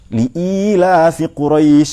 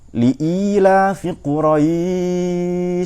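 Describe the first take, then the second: First: The long vowel is held briefly, one beat. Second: The long vowel is held longest, three beats. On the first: "satu alif" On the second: "sampai tiga alif kira-kira"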